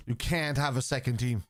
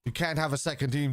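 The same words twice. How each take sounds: First: "can't" leaned on, whole line slow and deliberate; emphatic repeat. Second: Said in the usual way. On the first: Real, not acted. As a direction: spell it out slowly, hitting "can't". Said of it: "repeated slower for emphasis". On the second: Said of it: "repeats it slower for emphasis".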